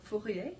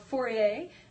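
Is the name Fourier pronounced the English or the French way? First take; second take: French; English. First: The name is said with a French pronunciation. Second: The name is said with an English pronunciation.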